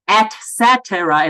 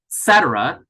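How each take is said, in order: First: Every vowel is pronounced fully and clearly. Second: The vowels are reduced and some are dropped. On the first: "It's not et cetera" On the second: "some of them are not pronounced at all for me"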